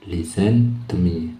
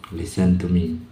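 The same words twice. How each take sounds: First: Slow, careful listen to me; slow teacher demo; slow model phrase. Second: Said in the usual way. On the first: Shown as a demonstration. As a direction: draw it out for learners to copy. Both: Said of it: "dibunyikan listen aja".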